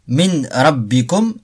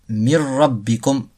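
First: The n is pronounced before a single r. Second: The n disappears and the r is doubled.

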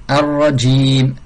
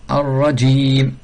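The two takes are said the same way.

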